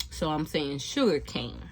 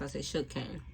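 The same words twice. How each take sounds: First: Said in the usual way. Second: "sugar cane" run together quickly and softer; said fast. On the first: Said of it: "say it fast". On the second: Shown as a demonstration. Vlogger showing how the name sounds said fast, quick and soft. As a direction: rush "sugar cane" into one quick word. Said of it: "I said, say it fast".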